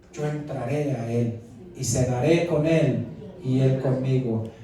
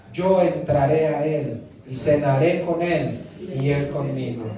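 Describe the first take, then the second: The two takes are said the same way.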